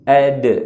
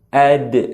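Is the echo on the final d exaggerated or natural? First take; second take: natural; natural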